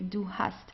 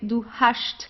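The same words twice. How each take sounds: First: It is said in standard German pronunciation. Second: It is said in a Swabian dialect pronunciation. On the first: "so you pronounce it the normal way" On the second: "some dialects where you would pronounce it as hast"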